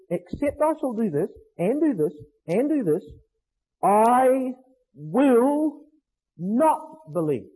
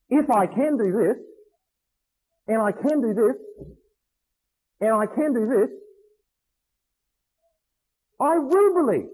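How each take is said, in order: First: Each condition counted off, then I, will, not each set apart and punched; pessimist's refusal. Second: Measured conditions with pauses, then WILL lifted high in "I will believe"; willing version. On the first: Preacher quoting doubting Thomas to the congregation, emphatic refusal. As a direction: dig in on NOT, slowing right down on "not believe". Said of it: "the mark of a, of a pessimist".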